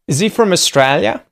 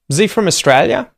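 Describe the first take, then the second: First: 'Is he' is said fully as two words. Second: 'Is he' is reduced to a z sound. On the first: "I'll say them once with Z" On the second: "then the second time with Z"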